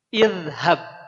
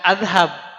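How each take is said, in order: First: The word begins with an i sound. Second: The word begins with an a sound. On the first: The speaker calls it right. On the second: The speaker calls it wrong. "bukan adhab"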